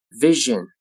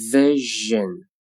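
First: Said in the usual way. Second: "Vision" slowly with a held zh; slow careful "Vision"; drawn-out model. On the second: Shown as a demonstration. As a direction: stretch "Vision" out for learners. Teacher models word slowly, then normally.

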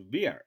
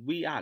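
First: "we're" run together into one syllable; "we're" said linked as one word. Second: "we are" as two separate full words; "we are" said word by word, unjoined; unlinked WE ARE. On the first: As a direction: glide we and are into "we're". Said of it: "连读we are". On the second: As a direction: keep "we" and "are" apart. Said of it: "不要读we are". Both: Shown as a demonstration.

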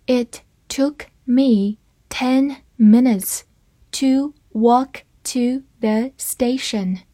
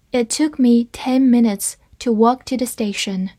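First: Slow and deliberate, word by word; slow reading. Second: Said in the usual way. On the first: Shown as a demonstration. Teacher reads the sentence slowly to students, slow and clear. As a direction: read it slowly for the class. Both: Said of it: "我们慢读一遍这个句子".

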